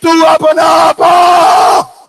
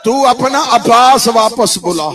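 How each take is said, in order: First: High, loud, long-drawn wail; retold wailing plea. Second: Retold tearful plea. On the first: Sakina begs father for Abbas, drawn-out high wail. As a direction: stretch the cry out at the peak of lament. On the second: Sakina asks father to call Abbas back, subsiding plea. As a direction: lament falling back from a wail. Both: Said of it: "رو کے سکینہ کہتی".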